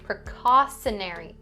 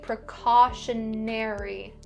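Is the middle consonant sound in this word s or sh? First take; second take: s; sh. First: The middle consonant is a plain s sound. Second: The middle consonant is an sh sound. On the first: The speaker calls it wrong. "Don't say precautionary" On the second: The speaker calls it right. "we're going to pronounce it the same way in the word precautionary"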